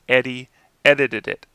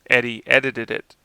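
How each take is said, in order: No difference in how they are said.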